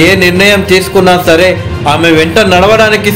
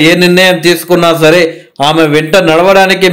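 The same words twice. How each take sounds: The two takes are said the same way.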